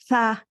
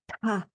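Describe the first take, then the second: First: It begins with a soft th sound. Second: It begins with an aspirated t sound. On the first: The speaker calls it wrong. "it doesn't sound like a tha" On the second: The speaker calls it right. "the T is aspirated. it's a ta"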